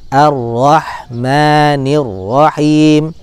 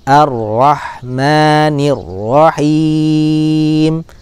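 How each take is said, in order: First: The final long vowel is held for two beats. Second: The final long vowel is held for four beats. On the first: "dua harokat" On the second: "empat harokat"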